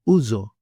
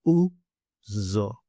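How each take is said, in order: First: "ouzo" joined up as OO-zo; whole-word pronunciation. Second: "Uzo" in two separated parts, u and zo; syllable by syllable. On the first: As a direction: say "ouzo" as one word, stress at the front. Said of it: "As in". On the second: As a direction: leave a gap inside "Uzo", lengthen the z. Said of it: "I'll say it for you now". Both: Shown as a demonstration.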